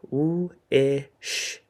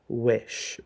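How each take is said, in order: First: Slow segmented sounding out; sound-by-sound tapping. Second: Said in the usual way. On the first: Shown as a demonstration. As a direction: stretch each sound apart as you tap. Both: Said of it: "So, for example".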